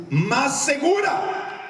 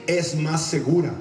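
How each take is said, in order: First: "más segura" pitched high and drawn out; emphatic repeat. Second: Said in the usual way. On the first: Real, not acted. Preacher repeats for congregation, "más segura" high and slow.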